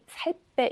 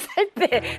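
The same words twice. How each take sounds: First: The phrase is said softly and quietly. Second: The phrase is said loudly and forcefully. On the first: "조용히" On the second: "목소리도 크면서"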